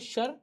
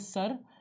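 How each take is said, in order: First: The word begins with an sh sound. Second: The word begins with an s sound. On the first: The speaker calls it wrong. "शर गलत था बच्चों" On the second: The speaker calls it right. "सही है सर"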